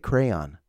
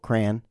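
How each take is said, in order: First: The word is said with two syllables. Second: The word is said with one syllable. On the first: "I say crayon" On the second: "My wife drops that one syllable"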